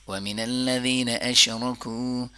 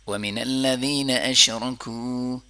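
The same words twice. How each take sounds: No difference in how they are said.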